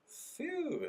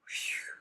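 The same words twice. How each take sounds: First: Voiced, high-pitched "phew". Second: Voiceless blown "phew"; sigh of relief "phew". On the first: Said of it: "Ele usa essa expressão". ("phew" agudo, com voz) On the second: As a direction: blow out "phew" without any voice. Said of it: "é tipo assim". ("phew" soprado, sem voz) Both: Shown as a demonstration.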